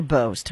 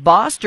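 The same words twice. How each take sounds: First: Bost with a long "oh" vowel, rhyming with "most"; Bost like "boast". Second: Bost with an open "ah" vowel, rhyming with "lost"; Bost like "bossed". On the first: Host offering another way to say the name, Bost said as "boast". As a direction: say Bost as "bohst". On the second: Host checking the congressman's name, Bost said as "bahst". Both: Shown as a demonstration. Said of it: "How does he say his name".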